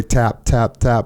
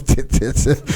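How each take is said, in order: First: Said in the usual way. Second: Airless little squeaks of tip; breathless squeak. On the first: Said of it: "I was trying to say". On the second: Retold or imitated. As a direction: tip said high and weak with no air. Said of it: "the only thing that came out was".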